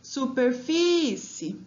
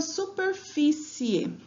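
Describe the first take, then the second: First: "Superfície" slowly, with FÍ held long; drawn-out "Superfície", leaning on FÍ; calling the word out. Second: Said in the usual way. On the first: Shown as a demonstration. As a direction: call out "Superfície", stretching the stressed FÍ. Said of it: "vamos chamar a palavra pra identificar". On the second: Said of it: "mas vamos chamar a palavra".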